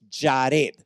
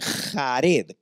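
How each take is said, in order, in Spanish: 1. Empieza con un sonido j como en inglés. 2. Empieza con un sonido parecido a una h gutural. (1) "en hebreo es Jared, así como la J se pronuncia en inglés" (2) "Aquí en español le ponen Jared con J"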